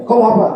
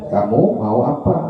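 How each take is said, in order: First: Higher, sharp confronting question; heated challenge. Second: Gentle offer over a meal. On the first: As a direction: fire it back mid-argument with Abu Jahal. (nada tinggi menantang saat berdebat panas) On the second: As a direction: ask kindly, like offering food to friends at the table. (nada lembut dan pelan saat makan bersama teman) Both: Shown as a demonstration. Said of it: "Berarti kan nadanya beda".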